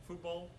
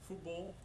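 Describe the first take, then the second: No difference in how they are said.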